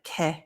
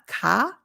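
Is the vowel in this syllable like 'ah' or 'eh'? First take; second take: eh; ah. First: The vowel sounds like 'eh'. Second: The vowel sounds like 'ah'. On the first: The speaker calls it right. "but ke" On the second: The speaker calls it wrong. "So it's not ka"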